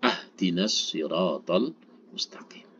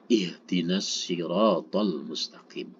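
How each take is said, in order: First: The first word begins with an 'a' vowel. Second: The first word begins with an 'i' vowel. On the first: The speaker calls it wrong. "Tidak dibaca" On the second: The speaker calls it right.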